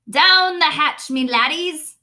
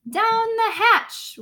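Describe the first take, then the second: First: Loud, slow table-pounding toast; hearty pirate toast; captain yelling. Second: Much higher, slow crew chorus; squeaky crew cheer; crew shouting. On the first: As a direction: bellow it as a rowdy toast. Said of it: "Braid Beard pounded his fist on the table and yelled". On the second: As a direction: echo it like a rowdy crew. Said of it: "we all shouted". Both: Acted.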